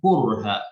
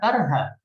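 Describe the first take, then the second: First: The first vowel is a rounded 'u'. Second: The first vowel is an open 'a'. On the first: This is how a minority of readers recite it. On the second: This is how most readers recite it.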